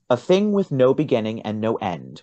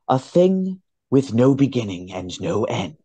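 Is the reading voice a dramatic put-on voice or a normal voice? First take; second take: normal; dramatic. First: It is read in an ordinary speaking voice. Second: It is read in a dramatic put-on voice.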